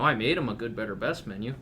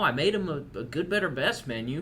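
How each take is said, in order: First: It is spoken in a plain, non-southern accent. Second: It is spoken in a put-on southern accent. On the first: "Is that more palatable for you?" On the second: "Why did you use a southern accent?"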